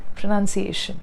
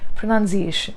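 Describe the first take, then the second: First: It has a slight z-like sound in the middle. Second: It has a slight z-like sound in the middle.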